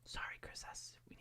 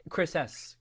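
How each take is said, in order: First: Hushed apology; breathy whispered sorry. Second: Said in the usual way. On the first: Real, not acted. Whispering sorry to a viewer so the baby sleeps. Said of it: "in our quiet voices".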